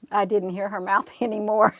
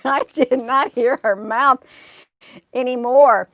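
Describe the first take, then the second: First: Said in the usual way. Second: Louder, with stress on "not" in "I did not hear her mouth anymore"; emphatic repeat. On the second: Real, not acted. Telling viewers the woman went silent, stressing "not". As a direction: hit "not" hard and let "anymore" fall.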